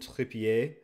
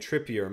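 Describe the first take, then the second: First: The name is pronounced the French way. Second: The name is pronounced the English way. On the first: "like the French pronunciation" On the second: "I always heard the English commentators saying Trippier"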